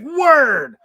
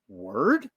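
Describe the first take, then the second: First: It is said with excitement. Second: It is said as a rising question.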